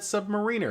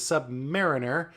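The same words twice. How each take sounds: First: It sounds like the word submarine plus er. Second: It does not sound like submarine plus er. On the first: "because it was submarine er" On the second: "the appropriate pronunciation is Submariner"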